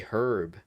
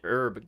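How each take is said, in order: First: The word starts with a clear h sound. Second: The word starts with a vowel, no h sound. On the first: "we actually pronounce the H, so it would be" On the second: "in American, you don't pronounce the H. H is silent"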